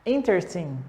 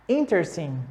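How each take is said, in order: Both takes have the same delivery.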